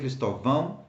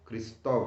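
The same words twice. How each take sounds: First: The stress is on the last syllable. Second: The stress is on the second syllable. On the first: The speaker calls it wrong. "So you don't say Cristóvão" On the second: The speaker calls it right. "because there is an accent over the the the, the O"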